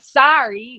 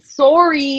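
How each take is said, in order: First: It is said with an American accent. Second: It is said with a Canadian accent. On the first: "like also super ac- like American accent" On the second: "sorry is very Canadian accent"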